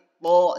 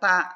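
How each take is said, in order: First: The syllable is said heavy, with a thick sound. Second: The syllable is said light, with a thin sound. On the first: The speaker calls it right. "tapi to, jadi ditebalkan" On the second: The speaker calls it wrong. "jadi bukan ta"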